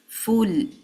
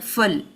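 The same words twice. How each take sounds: First: The vowel after the f has its full length. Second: The vowel after the f is cut short. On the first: The speaker calls it right. "It's full" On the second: The speaker calls it wrong. "So do not reduce the timing for this fa. It's not full"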